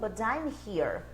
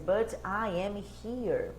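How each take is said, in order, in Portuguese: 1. As palavras são ligadas por contração. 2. Cada palavra é dita por inteiro e separadamente. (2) "ao invés de"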